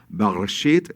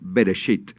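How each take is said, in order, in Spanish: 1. Se dice con sonidos más duros, parecidos al hebreo. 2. Se dice con sonidos más sencillos, parecidos al español. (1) "si usted no puede pronunciar Bereshit" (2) "entonces diga Bereshit"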